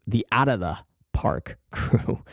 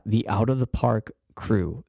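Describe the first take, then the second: First: Name said again through a laugh; slow repeat with a laugh inside. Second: Said in the usual way. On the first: Real, not acted. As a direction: chuckle mid-phrase, slowly.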